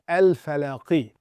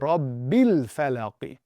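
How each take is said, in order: First: The opening 'a' sound is pronounced. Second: The opening 'a' sound is dropped. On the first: The word stands on its own. "If it was by itself" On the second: The word is joined to the word before it. "because we're connecting it"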